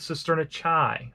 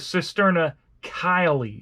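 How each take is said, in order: First: The last word is said as one syllable. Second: The last word is said with two syllables. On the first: This is the older habit the speaker was taught. The speaker calls it wrong. "she called it the cisterna Chi" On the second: This is the proper way to say the term. The speaker calls it right. "is how it's supposed to be said"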